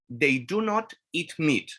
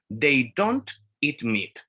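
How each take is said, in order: First: The negative is said as two full words. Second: The negative is contracted and said faster.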